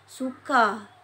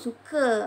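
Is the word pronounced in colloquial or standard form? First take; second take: standard; colloquial. First: The word is said in full standard form. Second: The word is said in a colloquial form. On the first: The speaker calls it right. "itu dengan sebutan yang betul" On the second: The speaker calls it wrong. "tak boleh sebut suka"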